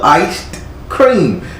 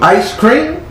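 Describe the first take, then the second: First: Each part is pronounced separately and over-carefully. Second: The words run together in a normal, smooth way.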